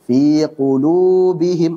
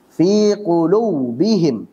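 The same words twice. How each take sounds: First: The lips stay relaxed on the long u. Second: The lips are pressed too hard on the u. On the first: The speaker calls it right. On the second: The speaker calls it wrong. "berlebihan di dalam menekan kedua bibir ... salah"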